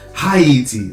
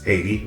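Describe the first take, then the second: First: The word starts with a strong H sound. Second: The word starts without an H sound. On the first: The speaker calls it wrong. "they were stressing the H" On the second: The speaker calls it right. "the correct or the English way of saying it"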